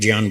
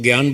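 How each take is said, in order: First: It is said in the Sanskrit pronunciation. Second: It is said the way Hindi speakers say it. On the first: "हम लोग ज्ञान बोलते हैं। ... इसका शुद्ध उच्चारण है ज्ञान" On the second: "वो हिंदी वाले उसको ज्ञान बोलते हैं"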